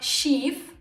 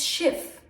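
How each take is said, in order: First: The vowel is long. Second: The vowel is short. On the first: The speaker calls it wrong. "It's not Schief" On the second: The speaker calls it right. "so the I becomes short"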